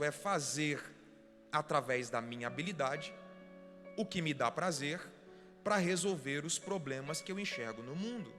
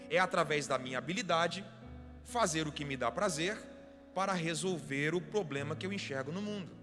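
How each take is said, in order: First: It is said very slowly. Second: It is said at normal speed.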